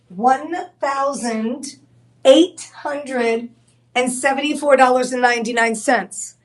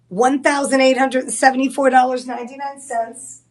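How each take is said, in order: First: The price is said slowly and deliberately. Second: The price is said at a normal pace.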